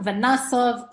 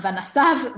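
First: Vanasov said with an o sound; right reading. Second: Vanasav said with an a, as the wrong form; wrong reading. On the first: Teacher correcting vanasav to vanasov. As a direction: say vanasov with a short o. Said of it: "second kamatz, kamatz katan". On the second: Teacher showing the wrong reading of vanasav. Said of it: "Not vanasav". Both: Shown as a demonstration.

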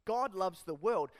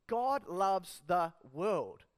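First: Said in the usual way. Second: Each word slow and weighted, "God loves the world"; slow emphatic repeat. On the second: Shown as a demonstration. Preacher repeats key line slowly.

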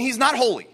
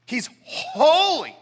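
First: Said in the usual way. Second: "holy" hugely drawn out, higher and forceful; emphatic holy. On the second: Shown as a demonstration. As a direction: stretch "holy" into a big swelling proclamation. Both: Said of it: "See the triple emphasis?".

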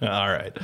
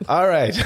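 First: Said in the usual way. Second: All right said higher and louder. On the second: Real, not acted. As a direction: punch out All right loudly.

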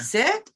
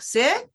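First: Sit with a rising questioning tune; questioning command. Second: Sit lifted high like a question; question-tune command. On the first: Trainer mimics owners' questioning command to dog. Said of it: "use that sort of tone". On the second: Trainer shows owners' rising Sit as a question. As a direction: make Sit sound unsure, rising. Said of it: "that's a question". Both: Shown as a demonstration.

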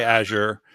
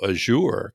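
First: "Azure" as AZH-er; preferred pronunciation. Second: "Azure" as French-sounding a-ZHOOR; mock-fancy "Azure" with a long OOR ending. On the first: Shown as a demonstration. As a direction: stress the start of "Azure": AZH-er. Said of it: "I wanna say Azure". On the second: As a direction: stress the end of "Azure", imitating a Frenchified a-ZHOOR. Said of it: "it makes it sound like, like it's French".

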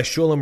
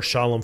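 First: "Shulam" with an oo in the first syllable; name pronounced correctly. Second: "Shalom" with an ah in the first syllable; common greeting form. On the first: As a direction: say "Shulam" as SHOO-lum. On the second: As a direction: say "Shalom", not with an oo. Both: Shown as a demonstration. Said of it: "say your name right".

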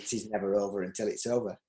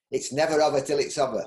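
First: Said in the usual way. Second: Broad Yorkshire saying; Yorkshire accent. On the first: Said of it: "which means". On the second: Shown as a demonstration. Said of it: "in my Yorkshire accent".

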